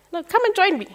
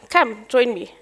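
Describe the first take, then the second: First: Repeated invitation pitched much higher, coaxing; insisting. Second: Said in the usual way. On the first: Retold or imitated. Mentor repeating his job offer to her, insistent and higher.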